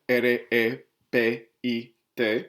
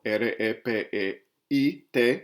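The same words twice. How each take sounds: First: R E P I T spelled slowly, letter by letter; carefully respell the stem as R E P I T; slow, deliberate R E P I T correction; corrected spelling. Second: R E P E I T spelled out with a stray E before I; spelling slip R E P E I T before the fix; misspelled stem. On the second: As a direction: stem spelled wrongly as R E P E I T, letter by letter. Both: Shown as a demonstration. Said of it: "Sorry, I'll say that again".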